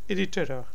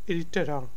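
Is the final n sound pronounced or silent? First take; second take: silent; silent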